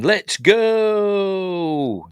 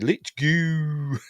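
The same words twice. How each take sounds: First: It is said with a plain, long go. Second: It is said in a Birmingham accent.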